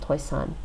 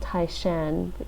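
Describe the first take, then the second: First: The name is said in Cantonese. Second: The name is said in Mandarin. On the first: "in Cantonese" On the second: "based on the Mandarin pronunciation of the place"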